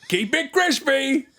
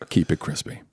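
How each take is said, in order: First: It is said in the Geico camel's voice. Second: It is said in his own normal voice.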